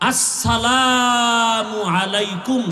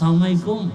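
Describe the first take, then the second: First: The greeting is said fully as two clear words. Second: The greeting is clipped into one short slurred word. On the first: The speaker calls it right. "শুধু এই দুইটা শব্দ" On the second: The speaker calls it wrong. "সালাম দিতে পারে না"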